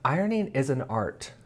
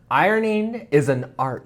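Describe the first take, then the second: First: It is said at normal, softer volume. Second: It is said louder.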